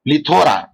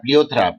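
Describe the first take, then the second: First: Plethora as pli-THO-ra; correct pronunciation. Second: Plethora misread as pli-O-thra; wrong pronunciation. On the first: Lecturer correcting himself for the class, correct pronunciation pli-THO-ra for plethora. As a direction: stress a long THO in plethora. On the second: Lecturer showing the class the slip, wrong pronunciation pli-O-thra for plethora. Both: Shown as a demonstration. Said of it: "not plethora".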